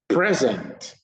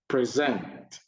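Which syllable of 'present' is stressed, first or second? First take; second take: first; second. First: The stress is on the first syllable. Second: The stress is on the second syllable. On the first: It is the noun. "noun, stress is on the first syllable" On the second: It is the verb. "verb, stress is on the second syllable"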